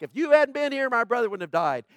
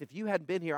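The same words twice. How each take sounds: First: High, loud, accusing protest; Martha's frustrated complaint. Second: Mary's faith. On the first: Martha confronting Jesus over her dead brother, loud and accusing. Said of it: "Martha was like". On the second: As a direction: say it gently, full of trust. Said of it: "And Mary, out of faith". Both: Retold or imitated.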